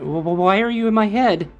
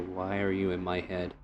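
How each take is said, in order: First: It is said in a frightened girly voice. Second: It is said in a flat monotone voice.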